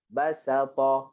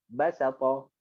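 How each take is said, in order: First: Medium-speed demo reading; moderate pace. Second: Quick, fluent demo reading; fast. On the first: Teacher to students, moderate pace. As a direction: read it evenly. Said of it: "Okey, sederhanakan dia". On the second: Teacher to students, fast reading. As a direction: say it off briskly. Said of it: "Okey, lajukan dia". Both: Shown as a demonstration.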